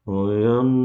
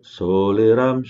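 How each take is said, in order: First: The word is mumbled with its sounds slurred. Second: Every sound of the word is articulated clearly. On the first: The speaker calls it wrong. "jangan oyam ... nggak jelas" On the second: The speaker calls it right.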